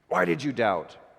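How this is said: It sounds angry and accusing.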